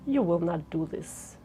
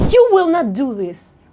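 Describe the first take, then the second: First: Soft, low and restrained; low volume. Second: Loud, firm command from the first word; high volume. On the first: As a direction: drop it right down, quiet and low. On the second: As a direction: say it loud and forceful. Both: Shown as a demonstration. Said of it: "let's change the volume".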